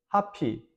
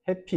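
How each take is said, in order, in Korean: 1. 첫 모음은 열린 'ah' 소리입니다. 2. 첫 모음은 더 평평한 'ae' 소리입니다. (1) "하피, 해피 이렇게 이제 발음합니다" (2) "하피, 해피 이렇게 이제 발음합니다"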